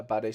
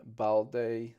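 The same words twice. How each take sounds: First: "Bade" said without an l, as BAH-day; corrected name. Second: "Balde" said with an l, as BAL-deh; mispronounced name. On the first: Shown as a demonstration. Correcting himself while reading the list, saying "Bade". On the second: Retold or imitated. Reading out goalkeeper names, with the l in "Balde". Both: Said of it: "Bade, sorry".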